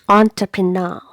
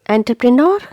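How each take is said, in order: First: The first syllable sounds like 'on'. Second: The first syllable sounds like 'an'. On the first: The speaker calls it right. "It's not an, it is on" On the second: The speaker calls it wrong. "No. Again, it's incorrect pronunciation"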